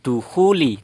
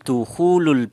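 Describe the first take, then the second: First: The word ends in an i vowel. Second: The word ends in a u vowel. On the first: The speaker calls it wrong. "bukan dukhuli" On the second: The speaker calls it right. "yang benar itu adalah ... dukhulul"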